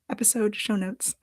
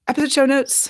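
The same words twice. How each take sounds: First: It is said slowly. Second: It is said quickly.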